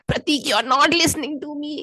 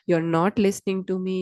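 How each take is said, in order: First: It is said in a raised, irritated voice. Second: It is said in a calm, low voice.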